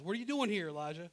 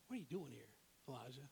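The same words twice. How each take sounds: First: Voice of the Lord. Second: Soft, lower, intimate question; gentle small voice. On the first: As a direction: put the question to him loudly as God. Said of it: "Lord says". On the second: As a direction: ask it gently, as God's still small voice. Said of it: "Elijah hears a gentle whisper". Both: Acted.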